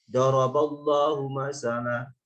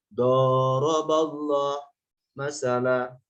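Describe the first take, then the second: First: The first vowel is said short. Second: The first vowel is drawn out long. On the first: God sets forth a parable. The speaker calls it right. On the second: God and creatures exchange parables with each other. The speaker calls it wrong.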